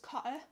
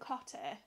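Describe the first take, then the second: First: The middle T is dropped, Yorkshire style. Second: The middle T is clearly pronounced. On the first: "because we're from Yorkshire, it was Cotter. you can't pronounce the T's" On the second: "it wasn't Cotter"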